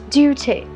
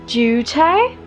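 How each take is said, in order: First: It is spoken in an American accent. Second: It is spoken in a British accent. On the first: "It's duty" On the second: "No, that's British"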